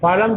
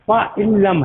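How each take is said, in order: First: The n sound is dropped and merged into l. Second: The n sound is pronounced as a separate word. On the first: "नून को ड्रॉप कर देते हैं" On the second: "पा इन लम है ये असल में"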